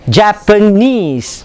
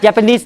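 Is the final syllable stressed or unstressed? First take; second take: stressed; unstressed. First: The final syllable is clearly stressed. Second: No syllable is clearly stressed. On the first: The speaker calls it right. "You stress on the knees" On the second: The speaker calls it wrong. "no stress. That's Malaysian"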